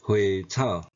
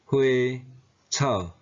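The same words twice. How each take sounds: First: 花草 run together, first tone changed; 花草 with tone sandhi. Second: 花, 草 said apart, each in its base tone; 花草 in citation tones. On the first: Teacher showing learners the changed tone, 花草 joined with sandhi. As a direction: join 花草 as one word in changed tone. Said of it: "变调音". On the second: Teacher showing Taiwanese learners base tones, 花草 syllable by syllable. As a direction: separate the syllables of 花草, original tones. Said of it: "本调音". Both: Shown as a demonstration.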